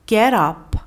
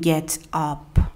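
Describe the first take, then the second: First: The t is a soft flap linking both words. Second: The t is crisp, separating the two words. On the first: The speaker calls it right. "اگر اینا رو بخوایم سریع تلفظ کنیم و تلفظ شبیه به نیتیو باشه، میگیم" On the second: The speaker calls it wrong. "دیگه نمیگیم"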